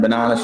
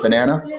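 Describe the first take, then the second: First: Banana is said with an Australian accent. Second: Banana is said with an American accent. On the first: This is how the family used to say it. "instead of saying banana" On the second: The child has picked up the local accent. "a bit of a tang in her accent"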